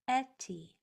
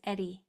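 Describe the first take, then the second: First: The middle consonant sounds like a clear T. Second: The middle consonant sounds like a D.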